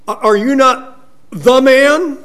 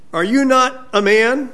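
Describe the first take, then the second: First: High, loud challenge leaning on "the man"; sarcastic taunt. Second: Higher-pitched mock question, lifting at the end; sarcastic challenge. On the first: Retold or imitated. David needles Abner as THE man, loudly sarcastic. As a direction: hammer "the man" louder and higher, as a taunt. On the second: David taunts Abner over his manhood, sarcastic. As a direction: lightly taunt him with a rising question. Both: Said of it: "very sarcastic".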